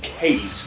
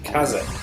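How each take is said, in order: First: The name is said as one syllable. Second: The name is said as two syllables. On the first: This is how other people say it. "which I've heard people describe as" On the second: This follows the Japanese pronunciation. "as the Japanese would pronounce it"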